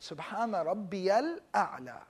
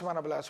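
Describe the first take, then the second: First: The phrase is said slowly and deliberately. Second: The phrase is said quickly and hurriedly. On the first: It is said while reflecting on its meaning. The speaker calls it right. "let's say it properly. Take your time with it" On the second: It is said without thought for its meaning. The speaker calls it wrong. "you won't say"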